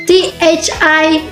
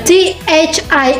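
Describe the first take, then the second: The two takes are said the same way.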